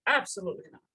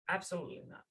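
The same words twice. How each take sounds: First: Emphatic refusal. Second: Quiet firm refusal. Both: Retold or imitated. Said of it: "And the Rebbe said".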